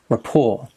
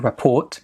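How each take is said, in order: First: The final T sound is silent. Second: The final T sound is pronounced. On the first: The speaker calls it right. "the pronunciation is without the T" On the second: The speaker calls it wrong. "They pronounced the T"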